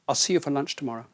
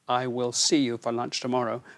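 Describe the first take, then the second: First: The word will is contracted to I'll. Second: The word will is said in full. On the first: "will in its short form and we say, I'll" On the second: "we do usually say, I will see you"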